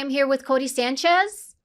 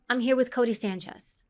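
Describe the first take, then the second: First: The pitch rises at the end. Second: The pitch falls at the end. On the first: The speaker calls it wrong. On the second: The speaker calls it right.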